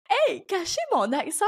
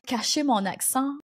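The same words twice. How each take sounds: First: High-pitched, incredulous repeat; mock disbelief. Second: Said in the usual way. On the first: Podcaster recalling early days hiding her accent, mock disbelief. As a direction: exclaim it as if it were absurd.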